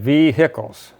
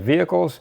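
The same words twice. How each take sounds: First: The middle syllable carries the stress. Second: The middle syllable does not carry the stress. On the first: This is how southern Indiana speakers say it. "emphasis on the hickle part of the word" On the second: This is how northern speakers say it. "Up north, we have vehicles"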